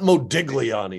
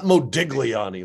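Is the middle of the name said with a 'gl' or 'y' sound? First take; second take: gl sound; gl sound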